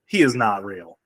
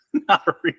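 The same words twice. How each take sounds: First: Said in the usual way. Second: Laughed out through giggles; fast, laughing disbelief; "He's not real" spilling out in a laugh. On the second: Real, not acted.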